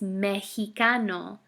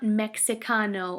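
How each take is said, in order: First: The x is said like an h. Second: The x is said like an English ks. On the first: The speaker calls it right. "It's Mexicano" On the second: The speaker calls it wrong. "it's not Mexicano"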